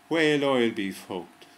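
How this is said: The words are read in an Irish accent. The words sound like a rude phrase. "when you read it with an Irish accent"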